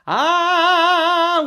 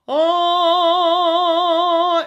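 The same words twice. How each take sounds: First: The vowel is wide and bright, with higher resonance. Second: The vowel is tall and dark, with deeper resonance. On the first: "versus the ah, which is going to boost some of the really, really high" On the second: "he's going for a very vertical ah"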